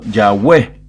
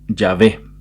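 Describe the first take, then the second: First: The middle consonant is a vowel-like W sound. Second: The middle consonant is a V-like sound.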